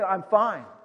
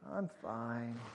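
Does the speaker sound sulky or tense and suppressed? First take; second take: suppressed; sulky. First: It sounds tense, holding feelings back. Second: It sounds sulky, like someone pouting.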